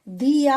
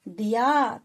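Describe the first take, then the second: First: The first vowel is long and drawn out. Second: The first vowel is short and quick. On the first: The speaker calls it wrong. "दिया हम नहीं पढ़ेंगे" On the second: The speaker calls it right. "दिया थोड़ा जल्दी से पढ़ेंगे"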